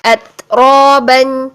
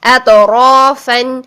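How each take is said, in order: First: اتروبن said slowly, the ت stopped and the breath let out; in اتروبن, stop the ت and release the air; released breath. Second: اتروفن said slowly, with the ط bounced in qalqalah. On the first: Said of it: "آواز کو بند کیا اور سانس کو جاری کیا". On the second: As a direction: shake the ط in اتروفن. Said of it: "آواز کو ہلا دیں گے". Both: Shown as a demonstration.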